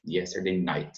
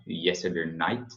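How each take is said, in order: First: "yesterday night" with the final T of "night" released; softer, sound the T ending "night"; pronounced T. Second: "yesterday night" with the T of "night" swallowed; softer, leave the final T of "night" unreleased. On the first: Teacher recommends sounding the T, clearly released T demo. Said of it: "você pronuncie o T". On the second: Teacher shows learners they can swallow the T, swallowed-T demo. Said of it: "você pode engolir o T". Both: Shown as a demonstration.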